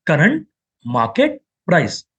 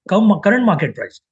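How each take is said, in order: First: Spelled out slowly. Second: Said in the usual way. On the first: Shown as a demonstration. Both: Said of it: "Why C M P?".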